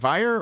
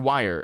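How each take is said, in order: First: The name begins with a V sound. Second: The name begins with a W sound.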